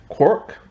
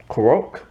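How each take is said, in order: First: "Quirk" as one syllable, like "kork"; mistaken pronunciation. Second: "Quirk" in two syllables, like "kuh-roak"; corrected pronunciation. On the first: Reviewer trying an actor's surname, mistaken one-syllable "Quirk". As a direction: say "Quirk" as "kork", rising in question. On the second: Reviewer retrying an actor's surname, corrected two-syllable "Quirk". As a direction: stretch "Quirk" into "kuh-ROAK", rising tentatively. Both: Shown as a demonstration. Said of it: "no, wait".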